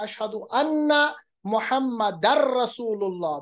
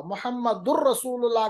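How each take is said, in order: First: मुहम्मदर said with a clear -ar ending joined to रसूलुल्लाह; correct Arabic recitation. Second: मुहम्मदुर said with -ur instead of -ar before रसूलुल्लाह; wrong vowel ending. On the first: Teacher showing students the muezzin's correct reading, careful. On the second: Teacher showing students the wrong reading, matter-of-fact. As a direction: read मुहम्मदुर with the u ending, the mistaken way. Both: Shown as a demonstration. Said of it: "अगर वो पढ़ेंगे तो गलत पढ़ेंगे".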